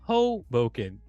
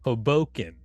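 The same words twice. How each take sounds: First: The stress is on the first syllable. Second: The stress is on the second syllable. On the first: "I'm putting the emphasis on the first syllable" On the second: "And you're going"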